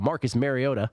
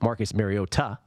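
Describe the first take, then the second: First: The name is said in a casual everyday way. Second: The name is said in a careful, precise way.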